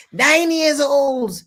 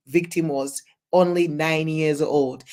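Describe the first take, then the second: First: Shocked exclamation. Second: Said in the usual way. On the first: Real, not acted. Shocked repeat of victim age.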